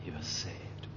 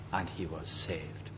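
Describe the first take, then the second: First: He was saved, whispered in awe; whispered wonder. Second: Quiet awe. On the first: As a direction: breathe it as a marvel. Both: Real, not acted. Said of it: "Believe it?".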